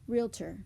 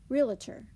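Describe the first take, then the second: First: The consonants are said without an added vowel. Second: An extra schwa breaks up the consonant cluster.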